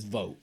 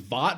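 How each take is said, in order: First: The name is said like 'vote'. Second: The name is said like 'vought'. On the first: The speaker calls it right. "but it's Vote" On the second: The speaker calls it wrong. "I thought it was Vought"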